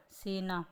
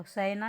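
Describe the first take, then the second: First: सेना said as "sena"; long closed "e" in सेना; correct pronunciation. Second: सेना said as "saina"; wrong pronunciation. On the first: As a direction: clear se-na for सेना. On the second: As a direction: open "ai" vowel in सेना. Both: Shown as a demonstration. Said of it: "तो सेना नहीं होता".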